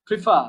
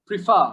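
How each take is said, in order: Both takes have the same delivery.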